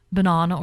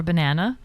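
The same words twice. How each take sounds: First: Banana with a British broad "ah" in the middle. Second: Said in the usual way. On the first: Shown as a demonstration. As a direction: say banana the British way, "buh-NAH-nuh". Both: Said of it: "They say banana over there".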